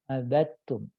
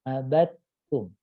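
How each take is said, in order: Both takes have the same delivery.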